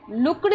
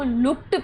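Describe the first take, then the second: First: The wrong way: लुक्ड ending in d. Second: लुक्ड said as "lookt", ending on a crisp t; the right way: लुक्ड ending in t; correct t ending. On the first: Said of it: "लुक्ड नहीं है". (लुक्ड को "लुक्ड" की तरह, अंत में ड की ध्वनि) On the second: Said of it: "लुक्ड पढ़ना है". (लुक्ड को "लुक्ट" की तरह, अंत में ट की ध्वनि) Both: Shown as a demonstration.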